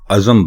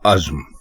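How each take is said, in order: First: A vowel is heard between z and m. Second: No vowel is heard between z and m. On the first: The speaker calls it wrong. "जे के ऊपर भी जबर लगा देते हैं, जिससे ये अज़म बन जाता है" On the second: The speaker calls it right. "अज़म नहीं बल्कि अज़्म बोलें"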